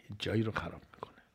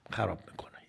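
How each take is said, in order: First: Whispered fast, softer; whispered warning; hushed repeat. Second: Said in the usual way. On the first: Shown as a demonstration. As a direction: drop to a quick whisper on جایی.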